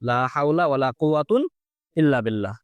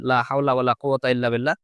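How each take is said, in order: First: First noun ends in a, second in un. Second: Both nouns end in a short a. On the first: "প্রথমটা এই ফাদার উপর মাবনি ধরে, পরেরটা ... দুই পেজ দিয়ে" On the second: "সরাসরি জবর দিয়ে দিই"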